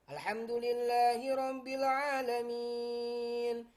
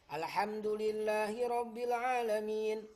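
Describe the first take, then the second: First: The final long vowel is held for four counts. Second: The final long vowel is held for two counts. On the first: "Begitu juga empat"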